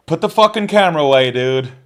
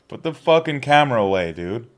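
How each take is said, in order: First: Angry shout. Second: Firm and a bit louder, less of a yell; annoyed repeat. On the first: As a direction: yell it, much higher and louder. Yelling at someone filming. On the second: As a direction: repeat the order, still irritated. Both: Real, not acted.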